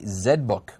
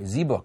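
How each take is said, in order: First: The Z is said 'zed', non-American style. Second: The Z is said 'zee', American style.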